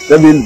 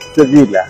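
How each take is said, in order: First: The name ends on the final l sound. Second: The name ends with an added a vowel. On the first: This is the English way of saying it. "আমরা ইংরেজিতে বলি" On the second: This is the Spanish way of saying it. "Spanish ভাষায় এটা উচ্চারণ করা হবে"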